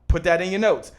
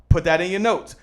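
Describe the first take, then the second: Both takes have the same delivery.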